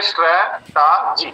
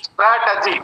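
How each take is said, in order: First: स्ट्रेटजी slowly split into three sounds; स्ट्रेटजी in three slow, separate beats; syllable by syllable. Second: Said in the usual way. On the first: Shown as a demonstration. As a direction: draw out each syllable of स्ट्रेटजी. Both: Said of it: "three sound सारे देखे".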